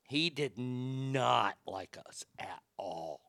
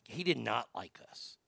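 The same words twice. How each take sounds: First: Laughing through it. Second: Said in the usual way. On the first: Real, not acted. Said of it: "I'm laughing so hard".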